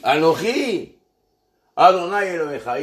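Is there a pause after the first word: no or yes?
yes. There is a pause after the first word. "on marque un temps d'arrêt"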